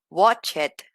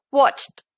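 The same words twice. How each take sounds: First: "watched" as two syllables, WATCH-ed; wrong -ed pronunciation. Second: "watched" as one syllable, watcht. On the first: Teacher showing what not to say, extra-syllable "watched". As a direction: sound out the E in "watched". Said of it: "En lugar de decir". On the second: Teacher correcting learners, "watched" said as watcht. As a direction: drop the E, end "watched" on CHT. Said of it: "voy a decir". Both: Shown as a demonstration.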